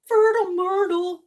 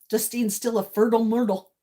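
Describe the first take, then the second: First: Playful sing-song. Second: Said in the usual way. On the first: Real, not acted. Playful repeat.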